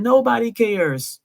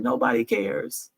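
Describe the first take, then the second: First: Higher, slow, tearful nobody cares; mock sob, slow and higher; imitating him crying. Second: Said in the usual way. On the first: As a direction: let the words break like his crying did. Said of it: "And he's just crying". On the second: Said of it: "what he said when he cried".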